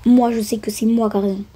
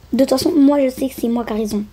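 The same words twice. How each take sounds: First: Said in the usual way. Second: Stubborn boast. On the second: Pretend. Stubborn claim, then repeated.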